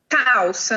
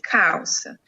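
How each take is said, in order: First: A sound in the word is changed or dropped. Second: The word is said fully and clearly. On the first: This is how the child says it. The speaker calls it wrong. "ele falou calça no lugar de" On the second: This is the correct form to repeat. The speaker calls it right. "no lugar de calça"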